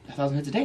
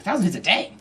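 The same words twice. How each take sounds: First: Said in the usual way. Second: Higher, incredulous question; acted disbelief at the figure; amazed coworker. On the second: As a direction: echo it back astonished.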